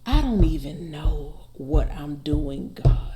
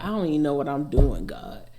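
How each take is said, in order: First: Drawn out slowly, savoring each word. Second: Rattled off quickly as a quote from the song. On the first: Shown as a demonstration. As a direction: linger on every word as if weighing it. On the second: Retold or imitated. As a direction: toss the line off fast and casually. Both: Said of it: "It's so much in that sentence".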